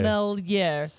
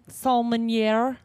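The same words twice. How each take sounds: First: The word is said without an N sound. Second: The word is said with an N sound. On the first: The speaker calls it right. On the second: The speaker calls it wrong. "There's no N in there"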